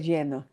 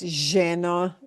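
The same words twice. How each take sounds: First: It is said in a neutral Spanish accent. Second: It is said in an Argentine Spanish accent. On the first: "We would say lleno" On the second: "she has a very Argentine accent"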